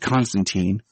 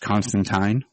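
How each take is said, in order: First: The name is said the American way. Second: The name is said the British way. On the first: "we'll go with Keanu for the Americanized version" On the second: "they went with the British, I guess, proper pronunciation"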